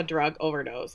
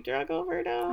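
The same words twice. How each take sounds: First: Said in the usual way. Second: Very high, soft disbelief; high-pitched appalled query; incredulous echo. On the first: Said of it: "we get a cop saying". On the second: Retold or imitated. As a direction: question it in squeaky disbelief.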